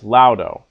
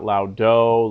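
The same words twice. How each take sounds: First: The stress is on the first syllable. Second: The stress is on the last syllable. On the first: The speaker calls it right. "It's laudo" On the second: The speaker calls it wrong. "Don't make the mistake ... of emphasizing the last syllable. It's not laudo"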